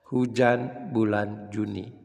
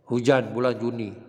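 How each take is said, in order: First: The phrase is read calmly and slowly. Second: The phrase is read quickly without pausing. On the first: Listeners catch every word. The speaker calls it right. "kalau kita tenang membacanya" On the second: Listeners have no time to take in the words. The speaker calls it wrong. "belum sempat orang menikmati tag-nya, kita langsung bicara"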